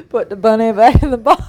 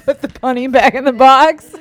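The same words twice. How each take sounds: First: Laughing, louder bad Southern imitation; bad Southern accent. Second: Put-on mangle a Southern accent while laughing; bad Southern accent. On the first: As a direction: quote the line through laughter. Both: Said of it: "It was the worst Southern accent".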